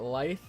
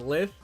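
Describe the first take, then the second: First: The vowel is long, as in 'writhe'. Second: The vowel is short, as in 'lithium'. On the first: The speaker calls it right. "that rolls off the tongue a lot nicer" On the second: The speaker calls it wrong. "The only reason why I pronounced it as lith is because um of lithium"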